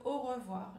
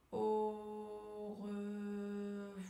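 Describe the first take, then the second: First: Said in the usual way. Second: AU REVOIR very slow, each syllable held on a level tone; stretched syllables. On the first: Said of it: "On va faire sur le au revoir". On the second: Shown as a demonstration. Coach has learners repeat along, drawn-out AU REVOIR. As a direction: draw out AU, RE and VOIR evenly, almost chanted. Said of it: "allonger le mot, allonger la syllabe".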